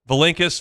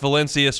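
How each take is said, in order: First: The name is said with a k sound. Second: The name is said with an s sound. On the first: This is how one brother says the family name. "Tomas Valenkis pronounces his name Tomas Valenkis" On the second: This is how the other brother says the family name. "His brother Vitas Valencius pronounces it Vitas Valencius"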